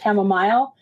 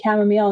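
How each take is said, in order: First: It is said the Canadian way. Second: It is said the American way. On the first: "Chamomile is more of a Canadian way of saying it" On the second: "training ourselves to say chamomile"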